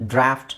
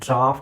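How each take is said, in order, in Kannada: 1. ಸ್ವರ ಹ್ರಸ್ವವಾದ ಚಪ್ಪಟೆ 'a' ಆಗಿದೆ. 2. ಸ್ವರ ದೀರ್ಘವಾದ ತೆರೆದ 'ah' ಆಗಿದೆ. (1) "ಅಮೆರಿಕನ್ ಇಂಗ್ಲೀಷಲ್ಲಿ ಅದನ್ನು ಡ್ರಾಫ್ಟ್ ಅಂತ ಹೇಳ್ತಾರೆ" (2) "ನೀವು ಡ್ರಾಫ್ಟ್ ಅಂತ ಹೇಳಬೇಕು"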